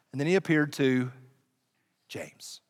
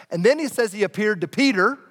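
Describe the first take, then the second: First: Whispered reveal of the brother; hushed dramatic reveal. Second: Said in the usual way. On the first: Acted. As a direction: drop to a whisper on James.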